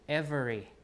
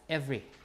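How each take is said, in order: First: It is said with three syllables. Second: It is said with two syllables.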